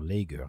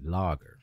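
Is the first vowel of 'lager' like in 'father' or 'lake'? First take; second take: lake; father. First: The first vowel sounds like the vowel in 'lake'. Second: The first vowel is open, like in 'father'. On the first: The speaker calls it wrong. "J'ai vu en ligne des gens dire lager, non" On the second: The speaker calls it right. "c'est le A ouvert presque à la française, c'est comme comme dans Father"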